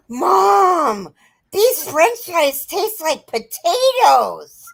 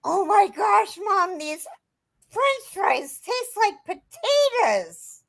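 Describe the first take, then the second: First: Put-on high, slow, amazed little girl; excited child. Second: Put-on high, slow, thrilled little girl; excited child. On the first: A mother imitating her little daughter's amazed discovery, high and slow. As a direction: gasp it out like a wide-eyed child. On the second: Mother imitating her little daughter's thrilled discovery, high and slow. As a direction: gush it like a delighted kid.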